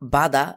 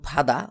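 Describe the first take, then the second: First: The word begins with a soft b sound. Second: The word begins with a p-like sound. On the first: The speaker calls it wrong. "বাদা এবং ফাদা দুটি শব্দই সঠিক" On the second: The speaker calls it right. "ফাদা শব্দটি অধিকতর গ্রহণযোগ্য"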